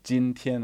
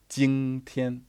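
First: The first syllable ends in a plain n sound. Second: The first syllable ends in an ng sound.

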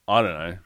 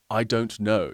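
First: The words are run together and shortened. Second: Every word is said fully and clearly. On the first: The speaker calls it right. "You say" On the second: The speaker calls it wrong. "you don't say"

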